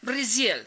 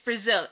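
First: It is said in a Latin American Spanish accent. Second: It is said in a plain American English accent. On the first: The speaker calls it wrong. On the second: The speaker calls it right. "Just say it's Brazil"

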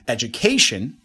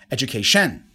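First: The stress falls on the third syllable. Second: The stress falls on the fourth syllable. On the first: The speaker calls it right. "Number three" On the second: The speaker calls it wrong. "And number four"

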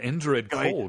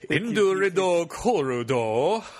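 First: Plain English pronunciation without added vowels. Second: Japanese-style pronunciation with added vowels.

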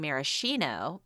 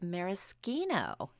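First: The middle consonant sounds like 'sh'. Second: The middle consonant sounds like 'sk'. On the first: The speaker calls it wrong. "All my life, I've been saying maraschino" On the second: The speaker calls it right. "apparently it's actually maraschino"

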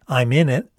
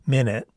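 First: Each word is pronounced separately. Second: The words slur together like one word.

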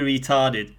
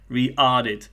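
First: The first t sound is pronounced. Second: The first t sound is dropped.

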